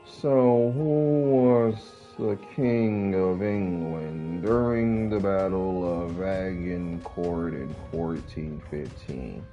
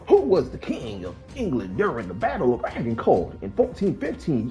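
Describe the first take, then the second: First: It is said in a dull, sleepy monotone. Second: It is said like a lively church pastor.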